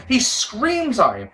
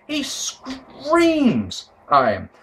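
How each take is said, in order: First: Slow, deliberate repeat; slow emphatic. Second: Very slow, higher, drawn-out; dragged-out slow. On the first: Commentator dwelling on Heyman screaming, slow. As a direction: lean into screams slowly. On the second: Commentator savouring Heyman screaming, very slow. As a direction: stretch every word, almost sung. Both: Shown as a demonstration.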